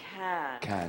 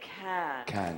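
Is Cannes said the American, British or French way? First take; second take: French; French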